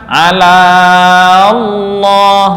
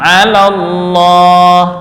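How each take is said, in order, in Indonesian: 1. Vokal sebelum Allah dipanjangkan. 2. Vokal langsung menyambung ke Allah, tidak dipanjangkan. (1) "Nggak boleh dibaca mat. Ala Allah, nggak" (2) "Tapi langsung ya"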